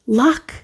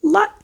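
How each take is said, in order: First: Said in the usual way. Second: Much higher, thrilled; excited repeat. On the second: Real, not acted. Tarot reader to viewer, excited. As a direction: squeal it with delight. Reads the charm, then repeats it.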